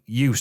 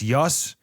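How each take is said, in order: First: The vowel does not rhyme with butt. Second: The vowel rhymes with butt. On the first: The speaker calls it wrong. "who I've been saying Ute this entire time" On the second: The speaker calls it right. "it's Yut like butt"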